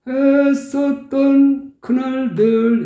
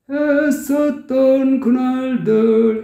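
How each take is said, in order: First: There is a pause before the last word. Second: The words run together without a pause. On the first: The speaker calls it wrong. "했었던 하고 멈추고" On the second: The speaker calls it right. "바로 했었던 그날들 이렇게 연결시켜줘야"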